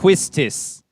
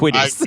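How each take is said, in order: First: The middle has an s followed by t. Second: The middle has a d sound, no s. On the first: The speaker calls it right. "If you just pronounce it as it is written, it would be pronounced Quistis. There's an S and a T" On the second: The speaker calls it wrong. "but you're like Quidis"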